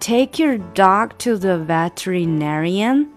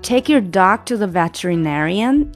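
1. 读得慢，语速正常。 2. 读得快。

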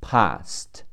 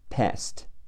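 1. 元音长而开，是英式的。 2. 元音短而扁，是美式的。

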